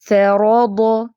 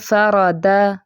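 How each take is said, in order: First: The final d sound is made heavy. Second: The final d sound is made light. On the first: The speaker calls it right. "रो और दो दोनों फैट हैं" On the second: The speaker calls it wrong. "इसको फ़रादा दा नहीं पढ़ना, बारीक नहीं कर देना"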